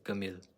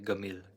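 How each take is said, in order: First: The word begins with a hard g sound. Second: The same.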